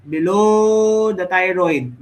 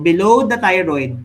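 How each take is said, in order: First: "Below" drawn out long and loud; stress on Below. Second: Said in the usual way. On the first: Real, not acted. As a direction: stretch the second syllable of "Below" for emphasis. Repeats with stretched word for emphasis.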